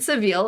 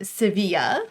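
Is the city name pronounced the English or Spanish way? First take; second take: English; Spanish. First: The city name is said with English pronunciation. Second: The city name is said with Spanish pronunciation. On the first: "as you say in English" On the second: "Look at me speaking Spanish"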